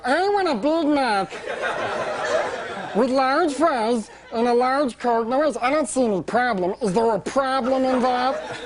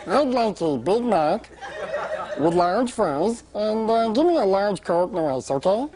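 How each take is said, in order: First: High helium voice, slow and indignant; pretend mad. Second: Helium voice. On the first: Comedian faking anger at the cashier in a high helium voice. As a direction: fake outrage in a squeaky high voice. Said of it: "So now I pretended like I got mad". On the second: Retold or imitated. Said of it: "with a straight face, I look at her, I go".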